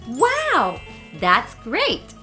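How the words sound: It is said with lively, excited intonation. The speaker truly finds it great. The speaker calls it right. "put your feelings onto the words using face expressions and intonations"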